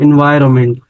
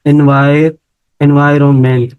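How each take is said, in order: First: Said in the usual way. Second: एनवायरनमेंट broken into parts, एनवाय first, then the whole word; syllable by syllable. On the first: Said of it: "मैं syllable आपको count करवाऊँ". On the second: Shown as a demonstration. Teacher counting syllables for students, syllable by syllable. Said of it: "तो इधर कितने syllable बन रहे हैं".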